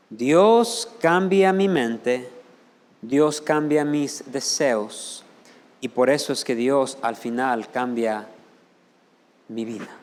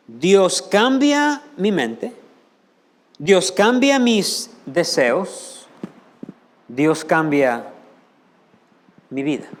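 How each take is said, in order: First: Pastor spells out the point slowly to the church; slow emphatic. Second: "Dios cambia mi mente" slow and louder, stress on "cambia" rising; slow building emphasis. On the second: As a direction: repeat it like a creed, building force. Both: Shown as a demonstration. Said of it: "Fíjense bien".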